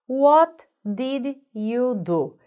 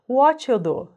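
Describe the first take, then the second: First: Every word is said fully and separately. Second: Words are reduced and run together. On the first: "Essa seria a frase completa" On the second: "o jeito que ela é falado"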